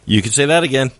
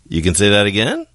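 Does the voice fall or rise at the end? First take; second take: falls; rises. First: The voice falls at the end like a statement. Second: The voice rises at the end like a question. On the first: "The statement versus the question" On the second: "you can say that again as a question"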